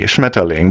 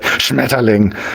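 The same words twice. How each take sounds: First: It is said in a calm, normal way. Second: It is said in a harsh, aggressive way.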